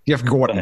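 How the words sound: It is said in a New York accent.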